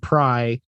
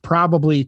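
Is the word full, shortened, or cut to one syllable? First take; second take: one syllable; full. First: The word is cut down to one syllable. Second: The word is said in its full form. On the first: "and then pry" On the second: "we've shortened probably"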